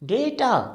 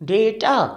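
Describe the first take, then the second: First: The first syllable has an 'ay' vowel. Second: The same.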